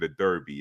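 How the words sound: Derby is said in an American accent.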